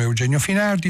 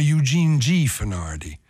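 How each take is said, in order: First: "Eugenio Finardi" said the Italian way, eu-JEH-nyo fi-NAR-di; "Eugenio Finardi" in plain Italian sounds; Italian pronunciation. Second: "Eugene G. Finardi" said the American way, YOO-jeen JEE fe-NOR-di; "Eugene G. Finardi" with American vowels; American pronunciation. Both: Shown as a demonstration. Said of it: "vedere il mondo in due modi".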